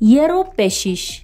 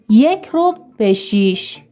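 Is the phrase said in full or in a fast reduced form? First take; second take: reduced; full. First: The phrase is said fast and reduced. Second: The phrase is said in full, slowly.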